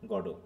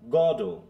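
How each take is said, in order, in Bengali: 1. দুটো সিলেবলই সমানভাবে বলা হয়, কোনো স্ট্রেস নেই। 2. স্ট্রেস প্রথম সিলেবলে। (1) "ফ্রেঞ্চে জাস্ট গডো" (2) "গড কে জোরে তারপরে ও"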